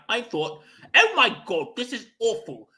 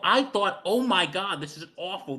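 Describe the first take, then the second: First: It is said in a British accent. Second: It is said in the speaker's normal accent.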